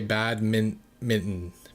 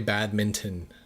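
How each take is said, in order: First: The middle T sound is dropped. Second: The middle T sound is clearly pronounced. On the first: "I just don't pronounce the T" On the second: "I don't say badminton"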